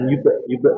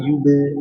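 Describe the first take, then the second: First: The b sound is cut off with a break. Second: The b sound flows straight into the next syllable. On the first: The speaker calls it wrong. "jangan yube yube" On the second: The speaker calls it right. "tapi yube"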